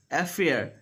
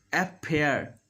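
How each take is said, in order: First: AFFAIR with an airy F; clear middle F. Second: AFFAIR said as "ap-pair"; F made a P. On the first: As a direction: let air through the FF of AFFAIR. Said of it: "when F is there in the middle". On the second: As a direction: lips shut on a P in AFFAIR. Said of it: "they do". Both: Shown as a demonstration.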